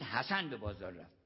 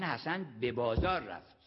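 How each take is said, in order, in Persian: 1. تأکید روی حسن است. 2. تأکید روی بازار است. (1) "یعنی حسین نرفت" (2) "یعنی حمام نرفت"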